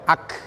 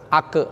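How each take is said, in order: First: The final k is released with a hiss. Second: The final k is released with a bounce. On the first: The speaker calls it right. "Tapi mengeluarkan desis" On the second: The speaker calls it wrong. "jangan mantul. Ak ak enggak boleh"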